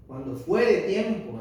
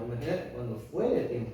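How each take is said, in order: First: "cuando fuere tiempo" drawn out slowly, with a falling weight on "fuere"; slow solemn reading. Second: Said in the usual way. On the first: Shown as a demonstration. Reading the verse to the congregation, slow and weighty. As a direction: stretch "fuere" and let it fall.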